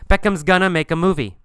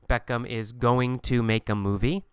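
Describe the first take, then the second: First: It is reduced to Beckham's gonna. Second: It is said in full as is going to. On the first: The speaker calls it right. "We say Beckham's gonna" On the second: The speaker calls it wrong. "in the textbook, you'll see going to"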